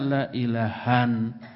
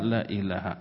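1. Kata ini berakhir dengan bunyi n tambahan. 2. Kata ini berakhir dengan vokal a biasa. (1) "Tidak boleh dibaca la ilahan" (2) "Makanya dibaca la ilaha"

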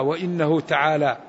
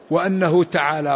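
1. الهمزة تُنطق بحركة 'i'. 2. الهمزة تُنطق بحركة 'a'. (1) "ومنهم من كسره" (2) "من فتحه"

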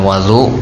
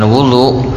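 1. Vokal pertamanya adalah bunyi a. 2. Vokal pertamanya adalah bunyi u. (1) "maka itu adalah air yang dipakai untuk berwudu" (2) "maka itu adalah perbuatan amal dari berwudu itu sendiri"

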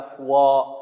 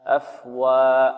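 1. حرف الواو مفخَّم وثقيل. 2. حرف الواو مرقَّق وخفيف. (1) "يفخم الواو، وهذا خطأ" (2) "بل يقول"

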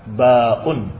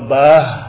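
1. Ada hamzah tetapi tidak ada h di akhir. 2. Ada h di akhir tetapi tidak ada hamzah. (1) "Kalau dengan mad tanpa ha" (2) "dengan ha tanpa mad. Tanpa mad artinya tanpa hamzah"

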